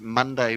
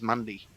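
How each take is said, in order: First: The word is said fully, every syllable clear. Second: The word is clipped and mumbled, said quickly.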